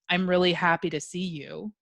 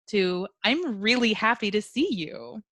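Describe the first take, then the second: First: It is said flatly, with little volume or inflection. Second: It is said louder, with lively inflection. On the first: The speaker does not sound glad. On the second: The speaker sounds truly glad.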